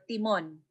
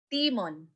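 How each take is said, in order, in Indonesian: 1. Tekanannya ada pada suku kata kedua. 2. Tekanannya ada pada suku kata pertama. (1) "aw taas ng o sang timon" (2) "biubutang naan, sang taas ng isang timon"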